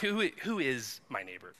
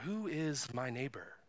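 First: It is asked nervously, stumbling, feeling trapped. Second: It is asked in a calm, pondering way.

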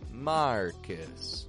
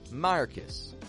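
First: The name is said slowly and carefully. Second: The name is said quickly and reduced. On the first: "it's not quite Marcus" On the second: "when we pronounce that a little bit quicker"

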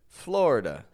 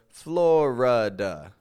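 First: The middle vowel is dropped, giving two syllables. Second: The middle vowel is kept, giving three syllables. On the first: This is how younger generations say it. The speaker calls it right. "but rather Florida" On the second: This is how older generations say it. The speaker calls it wrong. "I'm not saying Florida"

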